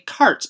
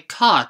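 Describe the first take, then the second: First: The word is said with an 'r' sound. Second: The word is said with no 'r' sound. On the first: This is the American pronunciation. "Americans say cart and party with an r" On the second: This is the British pronunciation. "British people do drop the r's in words a lot. They say cot instead of cart"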